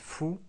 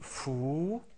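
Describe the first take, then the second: First: The vowel is held only briefly. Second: The vowel is drawn out long. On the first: "avec dhamma on dit fou" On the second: "avec la voyelle longue waw on dit fou"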